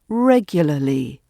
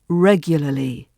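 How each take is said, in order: First: A middle vowel is dropped, making an L R cluster. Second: The same.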